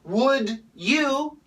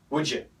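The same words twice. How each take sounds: First: The d and y are said separately. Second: The d and y merge into a j sound.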